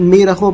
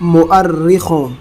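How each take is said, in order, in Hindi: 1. यह लंबी 'ee' आवाज़ से शुरू होता है। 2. यह 'mu-ar' से शुरू होता है, जिसमें र दोहरा है। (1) "बहुत से लोग इसे मीरखों पढ़ते हैं" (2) "इसका सही तलफ़्फ़ुज़ है डिक्शनरी में मुअर्रिखों"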